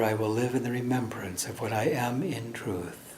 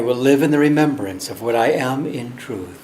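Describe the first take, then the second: First: It is spoken more quietly, softer voice. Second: It is spoken at full, normal voice.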